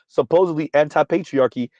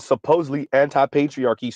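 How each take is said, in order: First: The word supposedly is said with strong emphasis. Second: The word supposedly is said without special emphasis.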